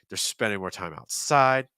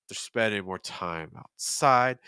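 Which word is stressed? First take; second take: outside; outside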